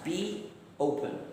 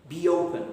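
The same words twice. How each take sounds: First: The two words are said separately. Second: A y sound links the two words. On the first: "You can hear the two sounds" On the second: "you can hear the y in between the word be and the word open"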